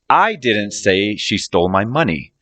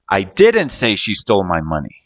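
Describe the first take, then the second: First: The word "I" is stressed. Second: The word "didn't" is stressed. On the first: Someone else said it, not the speaker. "I'm saying someone else said it, not me" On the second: The speaker denies saying it at all. "So I'm denying the action of saying it"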